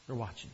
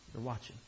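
The two takes are said the same way.

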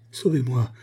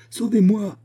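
First: A first cry for help, a little raised; calling for rescue, urgent but held back; frightened plea. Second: High, louder cry for help; desperate cry. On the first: Woman hanging over the torrent, first plea for help. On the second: Woman hanging over the torrent, crying out in terror. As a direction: scream for rescue as the branches give. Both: A narrator's reading. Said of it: "s'écria-t-elle".

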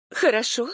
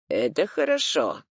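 First: Higher-pitched incredulous question; disbelieving. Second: Even, composed statement with falling end; unexpected approval. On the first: Client echoes her lawyer's verdict in disbelief. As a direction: echo it back as if you misheard. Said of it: "Я не поверила своим ушам". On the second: Lawyer reacts to client's bad news, unexpectedly approving. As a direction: deliver it as a settled, surprising verdict. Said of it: "неожиданно произнёс он". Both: A narrator's reading.

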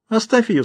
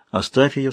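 First: High-pitched woman's voice; Alraune's voice. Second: Said in the usual way. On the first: A narrator's reading. Woman telling him to leave the other be, high character voice. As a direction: pitch it well up for her command. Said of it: "сказала Аль-Рауне". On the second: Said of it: "сказал он".

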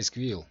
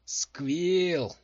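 First: Moderately loud urging call. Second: Loud, raised angry shout; growled rebuke. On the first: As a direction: call to him to carry on. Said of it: "крикнул Калла". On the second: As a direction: snarl the name to silence him. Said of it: "зарычала Дженси". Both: A narrator's reading.

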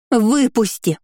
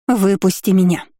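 First: Higher, piercing shriek; shrill scream. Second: Urgent hissed demand; hissing plea. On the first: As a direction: shriek it at the top. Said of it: "Голос девушки превратился в ультразвук". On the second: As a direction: hiss it through your teeth. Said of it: "зашипела Диона". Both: A narrator's reading.

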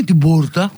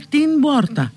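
First: «την πόρτα» σαν «τη bούρτα»; φάε το ν στο «την πόρτα»; λάθος χωρίς νι. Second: Αργό «την πόρτα» σαν «τιν bόρτα»; κράτα το ν και ηχηρό b στο «την πόρτα»; σωστό με νι. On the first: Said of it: "δεν είναι την πόρτα". («την πόρτα» με σκέτο b) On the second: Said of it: "είναι την πόρτα". («την πόρτα» με έρρινη ένωση) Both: Shown as a demonstration.

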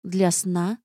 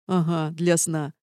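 First: Mildly puzzled rising question; surprised. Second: Slow, sly confirmation with a falling end; grinning. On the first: Narrator asks what the spells are for, surprised. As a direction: ask with innocent surprise. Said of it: "удивилась я". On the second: Half-demon hints at a dirty joke, grinning. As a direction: confirm it with a knowing grin. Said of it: "оскалился Азал". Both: A narrator's reading.

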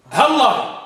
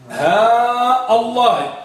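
First: Short "ها" run straight into "الله" as one word; quick joined "هالله", no break; no lengthening, no hamza. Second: Very long "ها", then a separate "الله" with its hamza; slow first-variant demo, stretch "ها" before "الله"; long vowel and hamza. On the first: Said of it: "نحذف المد". («ها الله» موصولة بلا مدّ ولا همزة) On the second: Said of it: "وضعنا المد على الهاء". (مدّ «ها» وقطع همزة «الله») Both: Shown as a demonstration.

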